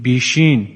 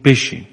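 First: The word is said with a lengthened regional vowel. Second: The word is said with its standard short vowel. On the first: "اگه جا به جا کنیم بگیم بیشین میشه لهجه" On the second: "ما میگیم بشین"

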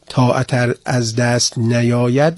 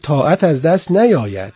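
First: The voice stays raised, leaving the phrase hanging. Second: The voice falls, closing the phrase as complete. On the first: It is a condition, with more to follow. The speaker calls it wrong. "نمیگه اگر طاعت از دست نیاید" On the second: It is a plain statement of fact. The speaker calls it right. "میگه طاعت از دست نیاید، این خبره، انشاء نیست، شرط نیست"

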